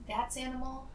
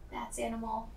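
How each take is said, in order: Both takes have the same delivery.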